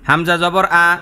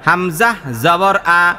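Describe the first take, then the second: First: The phrase is read at a quicker pace. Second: The phrase is read slowly and deliberately. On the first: "আস্তে আস্তে পড়াটা চালু করবেন" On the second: "ধীরে ধীরে বলছি"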